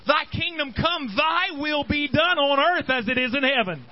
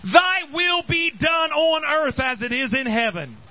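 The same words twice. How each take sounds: First: Prayer line recited in a raised preaching voice; reciting the prayer from the pulpit; quoting the prayer. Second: "Thy will be done on earth as it is in heaven" slowed right down, each word weighted, "Thy" leaned on hardest; solemn proclamation of the prayer; solemn slow recital. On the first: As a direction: proclaim the Lord's Prayer. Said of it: "he starts off saying". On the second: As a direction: let the prayer ring out slowly. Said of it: "that's exactly what the next line is". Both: Acted.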